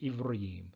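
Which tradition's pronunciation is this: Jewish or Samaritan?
Jewish. It is said in the Jewish reading tradition.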